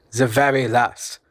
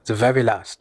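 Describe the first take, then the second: First: The very last, drawn out slowly, "very" leaned on; slow it right down and lean on "very"; slow emphatic repeat. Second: Said in the usual way. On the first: Acted. Uncle pressing the point on his nephew, slow and weighty.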